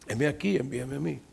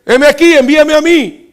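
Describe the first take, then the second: First: Much softer, lower humble answer; quiet sincere reply. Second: Loud, high, eager answer; eager volunteer. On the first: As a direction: say it softly to yourself. Preacher repeats Isaiah quietly. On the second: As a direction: jump at the call. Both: Acted.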